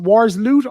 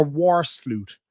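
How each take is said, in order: First: "Wars Loot" with the s closing "Wars"; "Wars Loot" as Wars, then Loot; split as Wars Loot. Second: "War Sloot" with the s opening "Sloot"; "War Sloot" as War, then Sloot; split as War Sloot. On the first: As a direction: say "Wars Loot", breaking before the L. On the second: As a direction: say "War Sloot", breaking before the S. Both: Shown as a demonstration. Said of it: "Is it Wars Loot or War Sloot".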